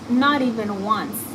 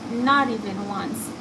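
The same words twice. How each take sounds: The two takes are said the same way.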